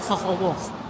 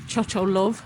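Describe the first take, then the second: First: The name is said the local native way. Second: The name is read as English spelling suggests. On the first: The speaker calls it right. "It's Ho Ho Wolf" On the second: The speaker calls it wrong. "Looking at how it's written, I would have pronounced it Cho Cho Love, but apparently that's completely wrong"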